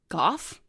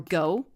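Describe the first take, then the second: First: The name rhymes with cough. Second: The name rhymes with though. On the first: "like cough" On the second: "like though"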